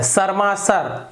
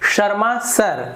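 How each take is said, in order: First: It begins with a hissing 's' sound. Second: It begins with a hushing 'sh' sound. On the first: The speaker calls it wrong. "ये गलत हो गया" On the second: The speaker calls it right. "ये सही होगा"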